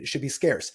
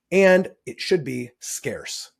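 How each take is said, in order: First: Said in the usual way. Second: And it should be scarce, each word slowed and pressed, louder; slow emphatic stress. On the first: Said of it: "this kinda comes back to". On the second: Shown as a demonstration. Teacher stressing scarcity to the class, slow and emphatic. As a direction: land "scarce" slowly and firmly as a key point. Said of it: "That's the other thing".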